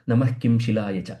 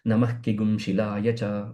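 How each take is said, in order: First: The second word begins with a plain 'kim'. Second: The second word begins with an extended 'kigum'. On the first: The speaker calls it wrong. "you don't have to change it to" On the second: The speaker calls it right. "it has to be said as ... That is the right way"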